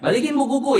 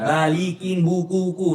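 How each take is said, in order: First: Some sounds are dropped or blurred together casually. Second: Every sound is pronounced carefully and fully. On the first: The speaker calls it right. "tapi ya balikin bukuku" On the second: The speaker calls it wrong. "nggak semua fonem kita bilang gitu kan, nggak balikin bukuku lah"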